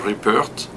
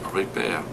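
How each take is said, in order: First: The name ends with a clear T sound. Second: The name ends without a T sound. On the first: This is the English way of saying it. "In English, I say Rupert" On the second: This is the French way of saying it. "You don't pronounce the T in French. You say Ripper"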